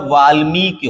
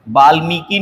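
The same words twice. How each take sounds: First: वाल्मीकि with long 'mee', short 'ki'; correct final vowel. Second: वाल्मीकि ending in long 'kee'; wrong final vowel. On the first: Teacher gives the correction, वाल्मीकि with short final i. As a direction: stress मी and keep कि short in वाल्मीकि. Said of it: "होता है". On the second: Teacher rejects a common error, वाल्मीकि with long final ee. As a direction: lengthen the last i of वाल्मीकि. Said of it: "नहीं होता". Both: Shown as a demonstration.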